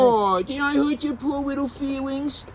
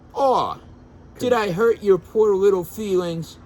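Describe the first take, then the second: First: It is read in a put-on character voice. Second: It is read in the reader's normal voice.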